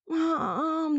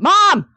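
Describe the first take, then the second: First: The call sounds weak and sick. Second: The call sounds searching and questioning. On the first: The child is ill. "that's the sick mom" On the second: The child cannot find something. "That's the I can't find something"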